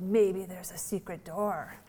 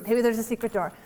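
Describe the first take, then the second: First: Put-on slow, soft little-girl suggestion; hushed child idea. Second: Said in the usual way. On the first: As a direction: whisper it like a child sharing a secret. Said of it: "she said". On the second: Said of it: "And I said".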